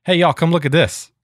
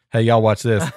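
First: Mild retold call to the kids. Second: A hint of a mock redneck, said almost plainly; redneck last words. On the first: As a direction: call the kids over to the window, a bit raised. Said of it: "I yelled at my kids". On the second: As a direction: lightly toss off the redneck's famous last words. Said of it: "Like Redneck's famous last words".

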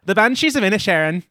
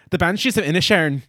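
First: Put-on second try at an Irish accent, a bit higher; lightly Irish title, said with more push. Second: Put-on Irish accent. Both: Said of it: "I'm gonna try to do this in my Irish accent".

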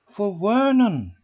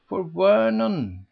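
First: "Vernon" pressed a bit louder; emphasized. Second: Said in the usual way. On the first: A narrator's reading. Miss Eleanor correcting the ladies, stressing "Vernon". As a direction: lean on "Vernon". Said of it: "Miss Eleanor emphasized".

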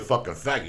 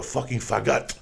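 First: Said in the usual way. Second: Put-on faggot in a Spanish accent, second syllable drawn out. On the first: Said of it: "But if a woman calls you". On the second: Comic imitating a film actress for his friends, Spanish accent. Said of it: "she had a nice accent".

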